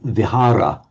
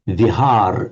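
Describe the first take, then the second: First: The word ends with a short final vowel. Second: The word ends without its final vowel.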